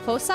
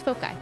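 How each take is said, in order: First: The c is said with an s sound. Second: The c is said with a k sound. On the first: The speaker calls it right. "pronounced with the C making the S sound" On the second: The speaker calls it wrong. "I always thought it was foci"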